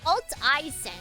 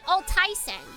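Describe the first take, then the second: First: Alt and I are said as separate parts. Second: Alt and I run together into one sound. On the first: The speaker calls it right. "Your name is pronounced Alt I Sen" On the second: The speaker calls it wrong. "not Altai Sen"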